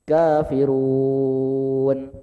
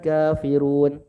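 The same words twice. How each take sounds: First: The final long vowel is held six counts. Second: The final long vowel is held two counts.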